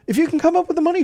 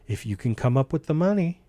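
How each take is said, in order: First: It sounds supportive and encouraging. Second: It sounds doubtful and discouraging. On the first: The listener is believed in. The speaker calls it right. "that means you believe in me" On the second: The listener is not expected to manage it. The speaker calls it wrong. "saying that in a way that you know that I can't come up with the money"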